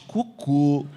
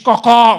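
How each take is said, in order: First: The final vowel is pronounced closed. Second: The final vowel is pronounced open. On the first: This is the Brazilian way of saying it. "vocês cocô" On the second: This is the Portuguese way of saying it. "A gente diz cocó"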